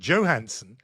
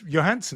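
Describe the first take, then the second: First: The name begins with a J sound. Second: The name begins with a Y sound. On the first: This is how it is said outside Britain. "outside this country, people call her" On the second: This is how it is said in Britain. "you wouldn't say the J in that"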